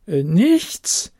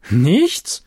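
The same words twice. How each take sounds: First: Hesitant, wavering "Äh, nichts"; less convinced. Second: Firm, certain denial; convinced. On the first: Loreen repeating her denial, now unsure. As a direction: doubt creeping in. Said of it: "mit etwas weniger überzeugendem Klang". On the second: Loreen denying to the librarian, firm and sure. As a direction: say it like you mean it. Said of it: "antwortete Loreen überzeugt". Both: A narrator's reading.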